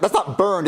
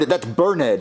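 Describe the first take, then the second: First: Said in the usual way. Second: Burned said as burn-ed, two syllables. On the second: Shown as a demonstration. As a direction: stress the ed in Burned as a separate syllable. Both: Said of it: "that doesn't sound right".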